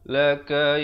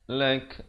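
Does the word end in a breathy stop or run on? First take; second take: runs on; breathy stop. First: It ends on a vowel flowing into the next word. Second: It stops on the consonant with a puff of air. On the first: The reader continues without pausing. "Kalau kita nak wasal" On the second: The reader pauses here. "Kalau waqaf dia ada bunyi hamasnya, bunyi angin di situ"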